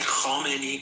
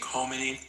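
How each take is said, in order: First: It is said with a Persian-sounding accent. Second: It is said with a plain American accent.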